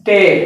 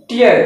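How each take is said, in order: First: "టేర్" with open ay-er vowel; ripping-sense pronunciation. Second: "టియర్" with ee-er vowel; teardrop pronunciation. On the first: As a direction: say "టేర్" to rhyme with care. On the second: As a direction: say "టియర్" to rhyme with near. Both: Shown as a demonstration. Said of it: "pronunciation is different".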